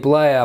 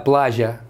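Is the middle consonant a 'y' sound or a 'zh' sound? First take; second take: y; zh. First: The middle consonant is a 'y' sound. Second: The middle consonant is a 'zh' sound. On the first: This is the standard Spanish pronunciation. "это не плая" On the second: This is how it is said in Argentina. "а плажа"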